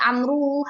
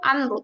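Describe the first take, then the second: First: The written waw sound is pronounced aloud. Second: The written waw sound is left silent. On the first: The speaker calls it wrong. "tidak Amru hakada" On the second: The speaker calls it right. "wawunya tidak, sebenarnya tidak diucapkan"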